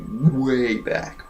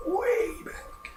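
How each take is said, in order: First: Said in the usual way. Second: Soft, high, airy whisper; thin faraway falsetto whisper; distant echo. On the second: Shown as a demonstration. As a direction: echo it faintly as from long ago. Echoes own words for effect.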